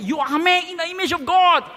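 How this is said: It is said loudly, clearly and with conviction. The speaker calls it right. "Say it loud and clear to affirmatively"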